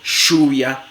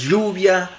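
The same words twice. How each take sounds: First: The consonant is a voiceless 'sh' fricative. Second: The consonant is a fricative with air escaping sideways. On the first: "fricativa postalveolar sorda, sh, como en show" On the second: "fricativa lateral"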